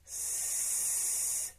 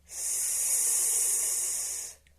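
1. Звук вимовляється трохи голосніше. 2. Звук вимовляється голосно. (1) "ще голосніше" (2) "і голосно"

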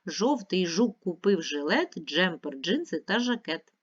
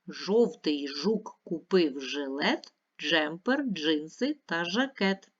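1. Рядок читається в швидшому темпі. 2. Рядок читається в повільному темпі. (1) "Швидше" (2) "Ще раз повільно читаємо"

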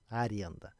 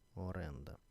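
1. Слово починається з голосного звука 'a'. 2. Слово починається з голосного звука 'o'. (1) "Аренда – це є така говірка московська" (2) "А справжній потрібно говорити оренда"

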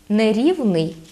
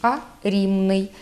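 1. Средний согласный — звук v. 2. Средний согласный — звук m. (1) "Не" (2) "звук «ви» переходить у звук «ми»"

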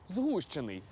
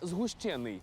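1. Наголос на першому складі. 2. Наголос на другому складі. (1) "правильно наголошувати на «у»" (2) "а не"

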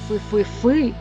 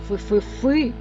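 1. Наголос на останньому складі. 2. Наголос на останньому складі.

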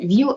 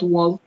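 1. Це звичайний одиничний голосний. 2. Це ковзний дифтонг. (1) "ну не віл" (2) "у них притаманні дифтонги"

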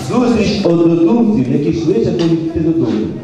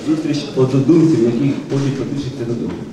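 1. Речення сказано голосно. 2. Речення сказано звичайним, тихішим голосом.

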